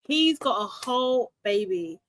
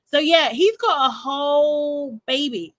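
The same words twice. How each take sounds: First: Said in the usual way. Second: Slow, stretched, leaning on every word; emphatic disbelief. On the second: Real, not acted. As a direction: drag it out in disbelief. Stunned reveal of his baby.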